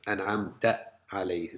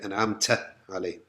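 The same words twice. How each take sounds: First: The t sound is clean without whistling. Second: The t sound has a whistling hiss. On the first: The speaker calls it right. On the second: The speaker calls it wrong.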